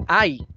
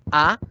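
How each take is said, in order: First: "ay" deslizando de A hacia I; diptongo. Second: "a" aislada, una vocal pura; vocal sola. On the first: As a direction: di "ay" en una sola sílaba con diptongo. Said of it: "a decir ay". ("ay" con final en I) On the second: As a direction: di "a" sin deslizar hacia otra vocal. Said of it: "No es lo mismo decir". ("a" simple y separada) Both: Shown as a demonstration.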